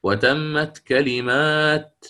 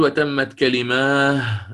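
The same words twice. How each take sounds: First: كلمات said slowly, stopping on a clear final t; slow demo of كلمات ending in t, not h; correct pausal form. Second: كلماه said slowly with a final h sound, the wrong way to stop; wrong pausal form. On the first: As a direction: stop on كلمات keeping the t audible. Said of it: "لا". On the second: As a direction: demo the incorrect pause كلماه with a final h. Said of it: "يعني ما يقول". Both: Shown as a demonstration.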